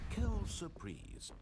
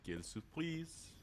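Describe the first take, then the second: First: High, slow French phrase; dry French aside. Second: Echoing the French phrase; dry mock French. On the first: Acted. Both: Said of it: "What a surprise in French".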